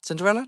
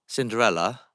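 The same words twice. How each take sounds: First: Cinderella? asked much higher and rising; high questioning. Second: Said in the usual way. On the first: Shown as a demonstration. Ghost hunter trying to recall the fairy tale, high rising question. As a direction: lift Cinderella? up into a squeaky question. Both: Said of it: "Not Cinderella".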